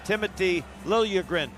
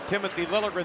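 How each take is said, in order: First: The name is said with Swedish pronunciation. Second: The name is said with English pronunciation. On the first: The speaker calls it right. "is the way you say that. So you have the Swedish pronunciation" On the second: The speaker calls it wrong. "the minute you say Timothy Liljegren, they say no"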